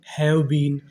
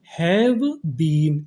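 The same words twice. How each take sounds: First: Said in the usual way. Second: Word by word. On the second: Shown as a demonstration. Teacher introducing have been to students, slow and separated. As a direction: have been stretched, with a gap between.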